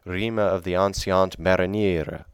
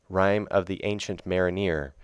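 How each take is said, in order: First: The title is said with an archaic pronunciation. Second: The title is said with a modern pronunciation. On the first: "bring it back to an earlier English pronunciation" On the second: "It looks like"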